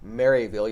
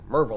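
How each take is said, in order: First: The name is said in full, like Mary-ville. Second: The name is squeezed into a quick Merville. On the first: An outsider is saying it. The speaker calls it wrong. "you don't say Maryville" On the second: A local is saying it. The speaker calls it right. "you say Merville or something like that"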